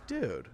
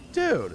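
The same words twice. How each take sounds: First: Said in the usual way. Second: Dude. shouted high and loud in disbelief; exasperated loud dude. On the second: Retold or imitated. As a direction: bark out Dude. like you got betrayed. Retold reaction to friend's trick.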